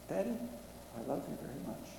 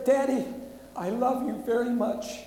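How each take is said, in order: First: Much softer, hushed daughter's words; tender imagined words. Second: Loud and high, carried by the reading's full force; daughter's last words, read aloud. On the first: Pretend. Father imagines his own daughter's final words, soft and tender. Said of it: "I hope that's my daughter's last words". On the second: Acted. Preacher quotes the dying daughter's words while reading the story, loud and raised. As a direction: ring it out as part of the urgent telling. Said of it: "she said".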